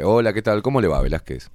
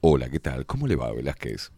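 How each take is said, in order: First: It is said in his natural speaking voice. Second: It is said in a put-on announcer voice.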